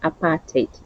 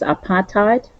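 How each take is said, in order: First: It is said with a South African pronunciation. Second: It is said with an English pronunciation. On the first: "for us South Africans apartheid" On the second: "for English it's apartheid"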